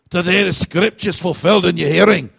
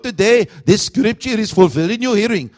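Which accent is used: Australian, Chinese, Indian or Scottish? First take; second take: Scottish; Indian. First: It is said in a Scottish accent. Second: It is said in an Indian accent.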